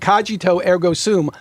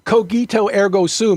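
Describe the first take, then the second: First: The g in cogito is soft. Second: The g in cogito is hard. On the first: The speaker calls it wrong. "He'd say" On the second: The speaker calls it right. "All C's and G's in Latin are hard"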